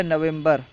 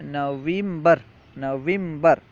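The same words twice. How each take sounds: First: Said in the usual way. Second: نویمبر as "naveembar", long ee after the v; Persian pronunciation. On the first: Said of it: "نومبر کو فارسی میں". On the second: Shown as a demonstration. Teacher showing Persian November to students, Persian pronunciation. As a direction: stretch an ee into نویمبر. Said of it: "واو کے بعد یا بڑھا دیں".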